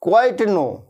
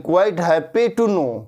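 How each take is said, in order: First: Said in the usual way. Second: Very slow, "happy" clearly stressed; slow corrected model; slow correct phrase. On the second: Shown as a demonstration. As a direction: correct it with "happy" put back, slowly. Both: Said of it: "quite know नहीं".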